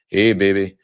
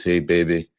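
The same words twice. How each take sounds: First: "Hey, baby" said louder, with a stronger imitation of a Louisiana Bayou accent. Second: Put-on Louisiana Bayou accent. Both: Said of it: "kind of talk like this".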